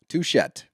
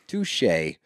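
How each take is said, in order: First: The word ends with a clear t sound. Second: The word ends without any t sound. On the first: The speaker calls it wrong. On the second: The speaker calls it right. "It's touche"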